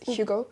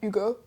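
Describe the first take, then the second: First: The name starts with a light H sound. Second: The name starts without an H sound. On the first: This is a lighter French accent. "We added the H back in, but it's very light" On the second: This is a heavier French accent. "Instead of saying Hugo"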